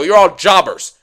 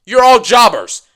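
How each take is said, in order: First: Said in the usual way. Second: Louder. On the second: Shown as a demonstration. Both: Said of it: "repeats line louder".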